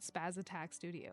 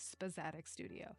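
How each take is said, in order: First: The name is said as 'spaz attack'. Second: The name is said as 'spazatic'. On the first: The speaker calls it wrong. "It's not Spaz Attack Studio" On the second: The speaker calls it right. "It is, in fact, Spazatic Studio"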